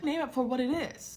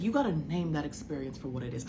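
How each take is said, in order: First: High-pitched, insistent quote; imitated emphatic friend. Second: Said in the usual way. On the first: Friend urging her to name it, emphatic high voice. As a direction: urge it in a high, dramatic voice. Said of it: "But she said". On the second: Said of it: "She said".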